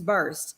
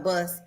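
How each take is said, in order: First: The vowel has an r sound in it. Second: The vowel has no r sound in it. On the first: It is the standard way of saying it. "the proper pronunciation is burst" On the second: It is the regional Southern way of saying it. "as as we say in the South"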